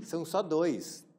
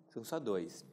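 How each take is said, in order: First: "só" stressed, slow and deliberate. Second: Said in the usual way. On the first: Shown as a demonstration. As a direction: lean on "só" slowly. (ênfase lenta em "só")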